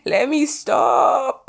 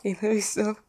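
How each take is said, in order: First: Very high, drawn-out singsong; playful self-scolding. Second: Soft, squeezed through a laugh. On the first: Host reining in her own joke, playful high drawl. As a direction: stretch it out high, teasing yourself. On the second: Host laughing at her own Australian joke, giggly. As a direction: giggle it out quietly. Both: Real, not acted.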